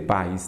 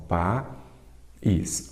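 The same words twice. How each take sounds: First: Said in the usual way. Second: País slowly split as "pa... ís"; sílaba por sílaba. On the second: Shown as a demonstration. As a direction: break país into two slow syllables, pa and ís. (país separado devagar em sílabas) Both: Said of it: "Vamos separar país".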